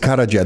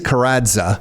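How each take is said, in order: First: The middle consonant is a 'j' sound. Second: The middle consonant is a 'dz' sound. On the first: This is the original, proper form of the name. "The proper way" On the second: This is how the name is said in Canada. "Canadian way"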